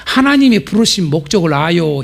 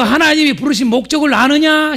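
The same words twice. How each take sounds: First: Slow. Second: Proclaiming call. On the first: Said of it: "옆 사람한테". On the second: Preacher proclaiming to the church, ringing and high. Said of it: "교회여". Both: Shown as a demonstration.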